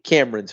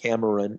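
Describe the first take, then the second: First: The middle vowel is dropped, giving two syllables. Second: The middle vowel is pronounced, giving three syllables. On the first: "you don't necessarily have to pronounce the uh, the e. You know, I think Cameron's fine" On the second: "as opposed to"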